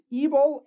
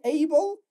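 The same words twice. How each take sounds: First: ABLE said "ee-bul", with a long ee first; higher-pitched ABLE with an ee opening; suffix -ible. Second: ABLE said "ay-bul", with a long ay first; high-pitched ABLE with an ay opening; suffix -able. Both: Shown as a demonstration. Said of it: "suffixes that we have here are".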